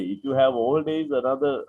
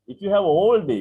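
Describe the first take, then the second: First: Said in the usual way. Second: ALL punched high and loud in "If you have all day"; stress on ALL. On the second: Shown as a demonstration. Teacher drilling the phrase for the class, with ALL stressed loud. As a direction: hit the word "all" hard and high, then fall.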